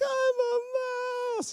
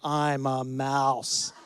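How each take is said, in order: First: It is said in a high, crying child's voice. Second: It is said in a strong, steady voice.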